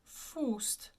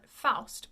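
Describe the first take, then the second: First: The vowel is said with rounded lips. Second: The vowel is said with unrounded lips. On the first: The speaker calls it right. "actually pronounced Faust. A very round in the mouth, oo lips pronunciation" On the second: The speaker calls it wrong. "We usually call it Faust"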